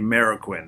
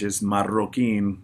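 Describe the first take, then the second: First: The R sound is plain, without a trill. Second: The R sound is rolled with a trill. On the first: "If you're Andrew Sheps, you say Marroquin then" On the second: "You got to roll the R's"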